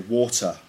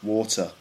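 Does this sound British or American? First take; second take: British; British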